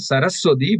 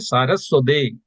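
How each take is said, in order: First: The word ends with an 'ee' vowel. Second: The word ends with an 'ay' vowel. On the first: The speaker calls it wrong. "we should not chant Saraswati" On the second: The speaker calls it right. "we should say Saraswati"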